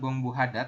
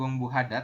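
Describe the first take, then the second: First: The h sound of hada is clearly pronounced. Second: The h sound of hada is clearly pronounced.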